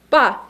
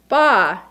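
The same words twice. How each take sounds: First: The pitch falls sharply and briefly. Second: The pitch dips low, then rises. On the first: "a definitive little jump, an exclamation point" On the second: "a sound that falls into a hole but then crawls out"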